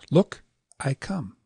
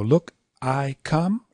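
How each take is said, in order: First: "Look", pause, then quick "I" into "come"; "Look, I come" as long, short, long; short middle syllable. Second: "Look, I come" with "I" stretched long; "Look, I come" slow, three long beats; all long. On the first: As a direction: set Look apart, shorten I. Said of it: "short, long". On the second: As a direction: give Look, I and come equal weight. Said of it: "you could go". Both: Shown as a demonstration.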